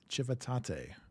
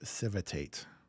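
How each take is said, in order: First: It is said with an Italian pronunciation. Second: It is said with an American English pronunciation. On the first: The speaker calls it right. "the correct pronunciation is civitate" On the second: The speaker calls it wrong. "as an American, my mind says this as civitate"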